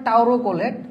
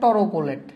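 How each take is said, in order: First: The first syllable is pronounced like 'tau'. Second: The first syllable is pronounced like 'tor'. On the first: "আসলে উচ্চারণটা হবে টাউরোকোলেট" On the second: "তোমাদের বইয়ে দেওয়া আছে টরোকোলেট"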